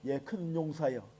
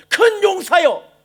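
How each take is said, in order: First: Quiet, slow sarcastic "예, 큰 용사여"; mock "큰 용사여" in a low, quiet, slow scoffing tone. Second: Slow, booming call, higher and louder; slow proclamation of "큰 용사여" with a drawn-out, higher, louder voice; God's call. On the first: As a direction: sneer it softly, much lower. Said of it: "이건 조롱입니다". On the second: Acted. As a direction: call him out like a thundering voice from heaven. God calls out to Gideon.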